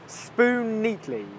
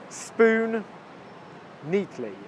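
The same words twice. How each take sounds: First: The two words are joined, sharing one N sound. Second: The two words are said separately with a break.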